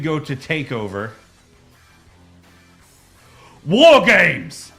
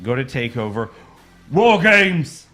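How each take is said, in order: First: There is a long pause before the last words. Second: There is only a short pause before the last words. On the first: The speaker calls it right. "A bigger pause between what you say and then the word" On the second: The speaker calls it wrong. "try that again, please"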